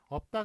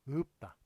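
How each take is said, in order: First: The first vowel is an open 'eo' sound. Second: The first vowel is raised toward 'eu'. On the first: The speaker calls it wrong. "없다가 아니라" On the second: The speaker calls it right. "이런 식으로 발음하는 게 그게 표준 서울말"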